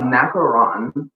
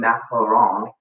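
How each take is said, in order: First: It is said with a plain English accent. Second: It is said with a nasal French accent.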